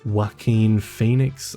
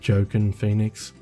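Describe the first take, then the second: First: The first name sounds like wah-keen. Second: The first name sounds like joe-kin. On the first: The speaker calls it right. "I believe that's how you pronounce his name" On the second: The speaker calls it wrong. "that's how his name's spelt, but obviously it's not pronounced that way"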